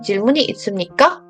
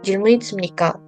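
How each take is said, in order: First: The pitch rises at the end. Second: The pitch does not rise at the end. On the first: The speaker calls it right. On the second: The speaker calls it wrong.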